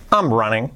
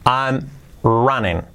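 First: Joined-up, brisker take; fluent second take; quicker repeat. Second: Slow, word-by-word teaching take; careful slow dictation; slow model. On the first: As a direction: run the words together for the repeat. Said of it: "un poquito más rápido que lo repite". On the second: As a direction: say it slowly with a gap between words. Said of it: "luego un poquito más rápido". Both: Shown as a demonstration.

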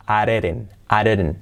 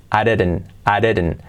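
The two takes are said the same way.

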